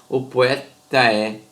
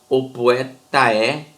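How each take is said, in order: Both takes have the same delivery.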